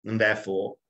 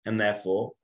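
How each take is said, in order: Both takes have the same delivery.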